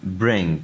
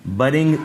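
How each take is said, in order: First: ब्रिंग in one syllable, b running straight into r; vowelless initial b. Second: बरिंग with a short "a" wedged between b and r; wrong added vowel. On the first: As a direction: model ब्रिंग with no vowel after b. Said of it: "इस पर ज़बर ज़ेर पेश कोई नहीं". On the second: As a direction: say बरिंग in two syllables, "ba-ring". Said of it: "नहीं पढ़ना". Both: Shown as a demonstration.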